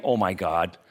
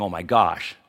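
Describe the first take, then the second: First: "Oh my God," with the last word ending in a clear hard d; "God" said in full, ending on a crisp d; saying God outright. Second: "gosh" with a hushed sh ending; softened to gosh. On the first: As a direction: spell out "God" plainly, not softened. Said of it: "I mean, I'm not saying". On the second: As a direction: swap the d for sh so it's "gosh". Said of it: "I'm saying". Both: Shown as a demonstration.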